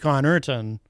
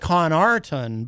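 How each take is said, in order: First: The middle syllable sounds like 'er'. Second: The middle syllable sounds like 'ar'. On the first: The speaker calls it right. "but it's actually" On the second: The speaker calls it wrong. "it looks like"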